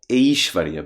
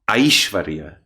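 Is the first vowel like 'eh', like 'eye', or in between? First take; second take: eh; eye. First: The first vowel sounds closer to 'eh'. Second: The first vowel sounds strongly like 'eye'. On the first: "not so much A" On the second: "not so much I"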